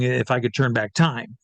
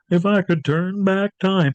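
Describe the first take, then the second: First: Said in the usual way. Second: Slow, higher-pitched sung line; singing. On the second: Retold or imitated. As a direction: sing it out as a stage impersonator, drawn out. Imitates entering singing that song.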